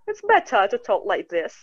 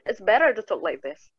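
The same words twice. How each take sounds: First: It is spoken in a British English accent. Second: It is spoken in an American English accent. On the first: "It's a British" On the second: "But when American, uh, they're going to say"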